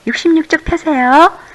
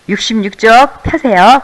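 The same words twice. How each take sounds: First: It is said in standard Seoul speech. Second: It is said in a regional dialect accent.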